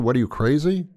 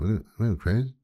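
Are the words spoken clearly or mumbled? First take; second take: clearly; mumbled. First: The words are spoken clearly and distinctly. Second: The words are mumbled and hard to make out. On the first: The listener checks what they think they heard. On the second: The insult is said without the listener being sure of it.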